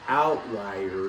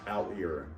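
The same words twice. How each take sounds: First: The middle part sounds like the word 'lie'. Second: The middle part does not sound like 'lie'. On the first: The speaker calls it right. "the word is outlier because it something that lies out" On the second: The speaker calls it wrong. "I read it first as outlier"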